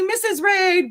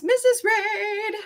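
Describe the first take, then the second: First: Quick high excited call of her name. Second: Very high, slow drawn-out sing-song name. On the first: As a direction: fling her name out with joy. Greeting a favourite chatter. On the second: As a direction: stretch her name like a tune. Sing-song repeat greeting. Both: Real, not acted.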